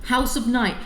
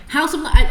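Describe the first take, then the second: First: Said in the usual way. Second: Higher, loud outburst; exasperated exclamation. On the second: Real, not acted. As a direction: blurt the title out in exasperation. Exasperated repeat of hated series title.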